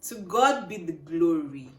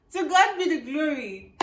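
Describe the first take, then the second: First: "God" and "glory" drawn out slowly; emphatic thanksgiving. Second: High, loud, laughing exclamation; jubilant thanksgiving. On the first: Vlogger announces her results, "glory" slow and thankful. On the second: Vlogger celebrates graduating, laughing jubilantly. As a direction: proclaim it through real laughter. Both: Real, not acted.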